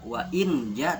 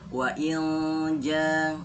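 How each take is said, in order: First: The nasal is a plain clear n sound. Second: The nasal is a blurred ng-like sound. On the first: The speaker calls it wrong. "Jadi tidak dibaca" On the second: The speaker calls it right. "tapi dibaca"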